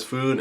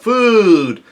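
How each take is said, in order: First: Said in the usual way. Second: High, loud drawn-out cry; mock yell. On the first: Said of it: "someone says". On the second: Reader voices Luffy yelling out for food, yelling. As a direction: holler it like a hungry cartoon hero. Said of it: "Luffy yells out".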